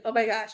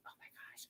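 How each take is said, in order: First: Said in the usual way. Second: Breathy unvoiced whisper, holding back tears; overwhelmed, barely voiced; tearful whisper. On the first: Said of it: "I'm just like". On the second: Real, not acted. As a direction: let it escape as a whisper. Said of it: "I'm trying not to cry".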